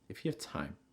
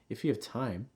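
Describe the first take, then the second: First: The pitch falls at the end. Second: The pitch rises at the end. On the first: "you may also see it with a falling intonation" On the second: "It's also going to receive your stress and have rising intonation"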